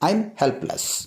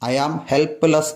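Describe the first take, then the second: First: 'I am' is shortened into one quick syllable. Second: 'I am' is stretched out in full. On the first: The speaker calls it right. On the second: The speaker calls it wrong.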